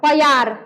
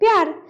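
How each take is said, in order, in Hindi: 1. प और य के बीच छोटा अ स्वर आता है। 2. प सीधे य की आवाज़ में मिल जाता है। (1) "अंतर आया, उच्चारण में अंतर आया" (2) "प्यार यानी कम में उच्चारण"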